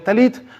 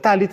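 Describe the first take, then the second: First: It is said in the Sephardi pronunciation. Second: It is said in the Ashkenazi pronunciation. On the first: "según sea sefardí" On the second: "o sea tzkanasi"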